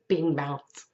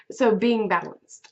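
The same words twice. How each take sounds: First: Hiccup breaking into the words; speaking through a hiccup. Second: Said in the usual way. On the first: Real, not acted. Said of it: "got the hiccups". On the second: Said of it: "Excuse me, got the hiccups".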